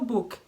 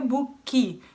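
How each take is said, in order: First: The word ends sharply on the K sound. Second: An extra vowel is added after the K. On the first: The speaker calls it right. "É só book" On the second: The speaker calls it wrong. "não é book"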